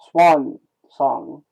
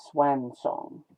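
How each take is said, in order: First: "Swan" with an open ah, hit louder; vowel variant. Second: "swan" with a flat a, as in "swam"; vowel variant. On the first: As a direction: say "Swan" to rhyme with "gone", punched. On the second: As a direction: say "swan" to rhyme with "man". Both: Shown as a demonstration. Testing two ways of saying swan.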